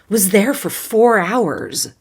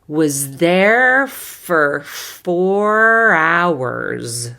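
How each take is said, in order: First: The phrase is spoken quickly, like conversation. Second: The phrase is spoken slowly and carefully. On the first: "Conversational pace" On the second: "I'll do it slowly the first time"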